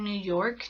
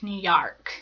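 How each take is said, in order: First: York has its usual 'oh' vowel. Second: York has an 'ah' vowel instead. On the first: The speaker calls it right. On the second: The speaker calls it wrong.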